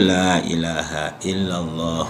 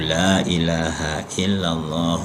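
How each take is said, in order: The two takes are said the same way.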